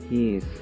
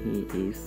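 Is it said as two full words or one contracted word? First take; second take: contracted; two words. First: One short contracted word is said. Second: Two full separate words are said. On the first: "กลายเป็น" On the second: "ก็ต้องอ่านว่า"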